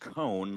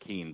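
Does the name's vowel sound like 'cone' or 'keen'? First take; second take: cone; keen. First: The name rhymes with cone. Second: The name rhymes with keen. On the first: The speaker calls it right. "It's Cone, like Conehead" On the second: The speaker calls it wrong. "instead of Keene"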